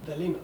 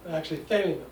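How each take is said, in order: First: "thelema" with the stress slipped onto "le"; second-syllable stress. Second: "thelema" stressed on the first syllable; corrected accent. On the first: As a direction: say "thelema" as the-LEE-ma. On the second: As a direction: say "thelema" as THAY-lee-ma. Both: Shown as a demonstration. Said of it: "I was pronouncing the second syllable inadvertently".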